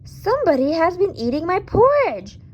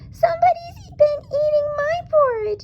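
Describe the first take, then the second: First: It is said in a loud, growly voice. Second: It is said in a high, squeaky voice.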